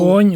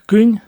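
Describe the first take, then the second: First: The vowel is long and drawn out. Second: The vowel is short and quick. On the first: This is the farther downstream local speech. "там якось отак вони тягнуть" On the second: This is the speaker's home village speech. "А в мене отак"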